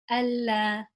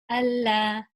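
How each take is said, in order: First: The L sound is light and thin. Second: The same.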